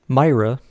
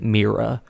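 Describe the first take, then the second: First: The name is said the usual English way. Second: The name is said the Greek or Latin way.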